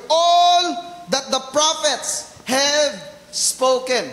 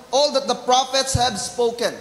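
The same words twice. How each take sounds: First: Preacher slowly hammering the word "All"; stress on ALL. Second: Said in the usual way. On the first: Shown as a demonstration. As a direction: lean hard and slow on the word "All". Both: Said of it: "Let me emphasize yung word".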